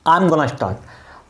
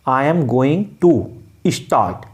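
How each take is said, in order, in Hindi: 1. Going to को छोटा करके gonna बोला जाता है। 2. Going to पूरा बोला जाता है। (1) "अंग्रेज गोइंग टू को हटा के गोइंग गोना बोल देगा" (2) "I am गोइंग I am गोइंग टू start"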